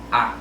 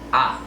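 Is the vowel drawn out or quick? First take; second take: quick; quick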